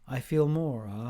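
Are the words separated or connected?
connected. The words are said joined smoothly together.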